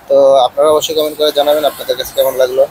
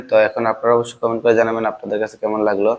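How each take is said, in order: First: Filtered outdoor lav mic sound; noise reduction artifacts. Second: Said in the usual way. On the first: Real, not acted. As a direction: voice through noise cancelling mic. (Noise ক্যান্সেলেশনের প্রভাব) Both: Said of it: "এতক্ষণ এই মাইক্রোফোনটার outdoor ... শুনলেন".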